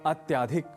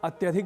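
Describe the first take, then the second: First: The vowel after the cluster is long. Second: The vowel after the cluster is short. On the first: The speaker calls it wrong. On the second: The speaker calls it right.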